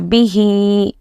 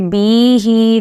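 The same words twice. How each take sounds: First: The first vowel is short, the second long. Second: The first vowel is dragged out long. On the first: The speaker calls it right. "bi should be read quickly and he should be dragged" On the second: The speaker calls it wrong. "if you say bihi, then it is wrong. You should not drag the b"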